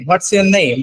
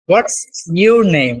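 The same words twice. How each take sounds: First: The word 'your' is reduced to 'yer'. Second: The word 'your' is said in full.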